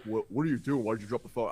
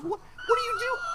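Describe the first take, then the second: First: Said in the usual way. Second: High squeaky shout. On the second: Retold or imitated. To the girlfriend on the phone, high squeaky shout. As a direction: shriek it in a squeaky panic. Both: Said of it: "I had a higher pitched voice than her".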